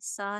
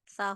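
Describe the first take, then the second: First: The consonant is a sharp, whistling s sound. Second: The consonant is a soft th with the tongue at the teeth. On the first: The speaker calls it wrong. "सीटी की आवाज ना आए, सा ना हो" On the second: The speaker calls it right. "इसको नरमी से पढ़ना है"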